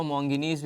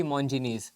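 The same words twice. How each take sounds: First: मोंगिनीज with a hard g instead of j; alternative pronunciation. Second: Said in the usual way. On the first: Shown as a demonstration. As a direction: say मोंगिनीज with "gi" in the middle. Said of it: "कुछ लोग इसको मोंगिनीज भी बोलते हैं". (मोंगिनीज में 'ज' की जगह 'ग' का उच्चारण) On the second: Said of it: "या कुछ लोग इसको मोंगिनीज भी बोलते हैं".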